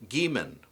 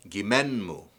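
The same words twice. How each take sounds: First: Said in the usual way. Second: Gimenmu with stress on MEN; stress moved along. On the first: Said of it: "the stress moves back". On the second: Shown as a demonstration. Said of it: "stress moves back one more syllable".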